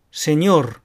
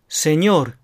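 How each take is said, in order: First: "セニョール" as Spanish señor, final r rolled; vibrating r closing セニョール; trilled final r. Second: "セニョール" as Spanish señor, final r tapped; short flapped r closing セニョール. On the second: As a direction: end セニョール on one tongue flick. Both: Shown as a demonstration. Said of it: "弾き音のると震え音のる".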